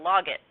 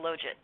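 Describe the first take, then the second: First: The g is hard, like 'log it'. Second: The g is soft, like a j.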